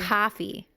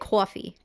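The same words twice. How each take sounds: First: The first vowel sounds like 'cah'. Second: The first vowel sounds like 'caw'. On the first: This is how someone else says it. "She says" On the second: This is how the speakers themselves say it. "We say"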